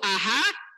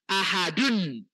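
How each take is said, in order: First: The word ends bare, without the -un ending. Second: The word ends with the full -un ending. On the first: The reciter stops at the end of the verse. "kalau kita berhenti" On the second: The word is read with its full vowel ending. "tapi full"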